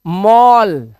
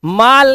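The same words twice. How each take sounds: First: मॉल with rounded 'aw', 'mawl'; मॉल, vowel held as 'aw'; correct reading. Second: माल with a long open 'aa'; mis-read mall as माल, 'maal'; माल with the vowel of 'father'; wrong reading. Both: Shown as a demonstration. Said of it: "माल नहीं है ये".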